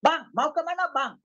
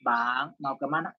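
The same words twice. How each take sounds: First: High, forceful Batak-style question; Batak manner. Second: Low, gentle polite question; soft-spoken asking. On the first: Preacher imitating a Batak calling a man, forceful Batak manner. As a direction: sound angry without being angry, Batak style. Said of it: "jangan pikir dia marah-marah". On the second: Preacher showing how Bataks rarely ask, low and mild. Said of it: "jarang kalau ngomong itu". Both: Shown as a demonstration.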